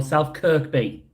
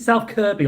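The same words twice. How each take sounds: First: South Kirkby with a K before the B; Kirkby, middle K sounded; sounded-K version. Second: South Kirby with no K before the B; Kirby, middle K left out; silent-K version. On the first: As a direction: say "Kirkby" as KERK-bee. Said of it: "Not Kirkby". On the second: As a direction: say "Kirby" as KER-bee. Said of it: "say I pronounced Kirby wrong". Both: Shown as a demonstration.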